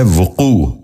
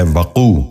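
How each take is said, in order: First: وقوع said as "vu-qoo", short u after v; correct pronunciation. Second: وقوع said as "va-qoo", short a after v; mispronounced. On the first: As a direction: open وقوع with "vu". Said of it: "درست تلفظ ہے". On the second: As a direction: open وقوع with "va". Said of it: "یہ غلط تلفظ ہے". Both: Shown as a demonstration.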